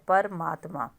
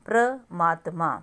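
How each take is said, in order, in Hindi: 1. पहले अक्षर अलग-अलग 'pa-ra' जैसे हैं। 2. पहला अक्षर मिला हुआ 'pra' जैसा है। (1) "र के बाद मतलब पूरा रा की साउंड है" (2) "अब ये प्रमात्मा हो गया वर्ड"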